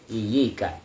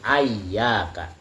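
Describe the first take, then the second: First: Single y, first vowel i, then i. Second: Doubled y, first vowel a, then a. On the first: "tanpa tasydid, sudah gitu huruf ya-nya bukan pakai fathah tapi pakai kasrah" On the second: "memfathahkan huruf hamzah ya. Walaupun huruf ya-nya masih bertasydid"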